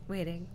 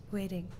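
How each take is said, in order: Both takes have the same delivery.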